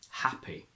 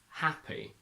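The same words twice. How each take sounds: First: The vowel is short and further back. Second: The vowel is bright and nasal-sounding.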